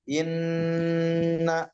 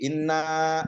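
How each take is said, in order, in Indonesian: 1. Huruf n yang ganda ditahan dan ditekankan. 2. Sebaliknya, vokal akhir yang dipanjangkan.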